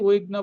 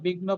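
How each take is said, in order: First: The word begins with a w-like sound. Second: The word begins with a b sound. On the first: "যারা ভালো পারেন তারা বলছি উইঘ্ন বলবেন" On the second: "যারা একদম নতুন তারা বিঘ্ন প্রয়োজনে বলবেন"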